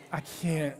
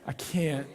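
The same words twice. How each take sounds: The two takes are said the same way.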